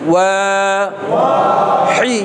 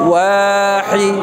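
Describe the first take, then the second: First: The syllables are said separately with a break. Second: The syllables are joined smoothly without a break. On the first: "আগে আমি ভাঙ্গেন ওয়াহি" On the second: "এবার আপনি মিলান ওয়াহি"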